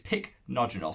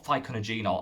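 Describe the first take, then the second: First: It begins with two quick syllables: pick-no. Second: It begins with an extra vowel: fy-co-no. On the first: The speaker calls it right. "It's pycnogenol, so I've actually said it right" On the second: The speaker calls it wrong. "I call phyconogenol, I always call it, but it's not"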